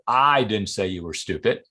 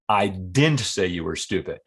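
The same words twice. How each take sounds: First: The stress falls on the word I. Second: The stress falls on the word didn't. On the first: Someone else said it. "Maybe I heard somebody else say it" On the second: It was never said at all. "Flat out denial"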